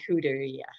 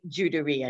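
First: The first letter is not pronounced as a j sound. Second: The first letter is pronounced as a j sound. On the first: The speaker calls it wrong. "not Juderia" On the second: The speaker calls it right. "you would say Juderia, So the J is pronounced"

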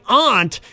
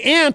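First: It sounds fancy, unlike the insect word. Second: It sounds like the insect word ant. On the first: It sounds pretentious. "listen to you, all fancy" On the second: It sounds like the speaker means an insect. "it sounds like you're talking about an insect"

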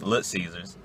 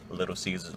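First: The first word is cut to one syllable. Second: The first word is said in full, two syllables. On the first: This is how the speaker's group names the place. "That's what we say. We say Lit" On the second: This is the standard way of naming the place. "We don't say Little Caesars"

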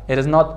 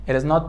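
The two takes are said the same way.

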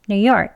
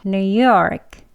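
First: It is said fast. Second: It is said slowly. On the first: "빨리 할게요" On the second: "천천히"

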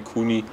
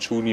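First: The name begins with a 'k' sound. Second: The name begins with a 'ch' sound. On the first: "manche Kuni" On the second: "Manche sagen Tschuni"

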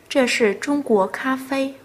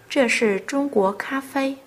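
The two takes are said the same way.

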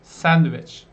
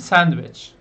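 The two takes are said the same way.

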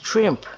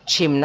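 First: It starts with 'shr' and ends in m-p. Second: It starts with 'ch' and has no r. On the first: The speaker calls it right. "คือ" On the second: The speaker calls it wrong. "ไม่ใช่ชิมนะคะ"

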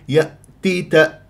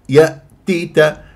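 The two takes are said the same way.

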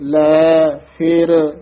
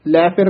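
First: The two words are said clearly separated. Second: The two words are run together as one. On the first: The speaker calls it right. "ਇਹ ਸ਼ੁੱਧ ਬੋਲਣਾ ਹੈ" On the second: The speaker calls it wrong. "ਇਕੱਠਾ ਨਹੀਂ ਕਹਿ ਦੇਣਾ"

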